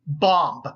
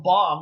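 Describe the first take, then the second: First: The final B is clearly pronounced. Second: The final B is silent. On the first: "Are you pronouncing the second B? ... I did that" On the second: "you misheard me the first time"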